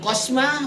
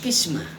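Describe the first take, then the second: First: The first vowel is an o sound. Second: The first vowel is an i sound. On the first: The speaker calls it wrong. "Bukan kosmah" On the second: The speaker calls it right. "Ini pasti dibacanya kismah"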